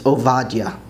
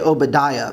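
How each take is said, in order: First: The name is said with a Hebrew pronunciation. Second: The name is said with an English pronunciation. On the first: The speaker calls it right. "It's Ovadia" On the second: The speaker calls it wrong. "that's really not the way to pronounce it"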